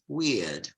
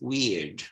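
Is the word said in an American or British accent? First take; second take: British; American. First: It ends in a diphthong with no R sound. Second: It ends with a clearly pronounced R sound. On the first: "In British English, it's weird" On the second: "In American English, it's weird, with the erotic R"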